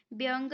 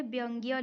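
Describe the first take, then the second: First: व्यंग ending on a bare g, no y; the mistaken y-less ending of व्यंग; wrong form. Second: व्यंग्य with a clear "gya" ending; correct form. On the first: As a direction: stop व्यंग at "vyang". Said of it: "व्यंग नहीं लिखा जाता है". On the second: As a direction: add the y glide at the end of व्यंग्य. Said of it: "व्यंग्य लिखा जाता है". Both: Shown as a demonstration.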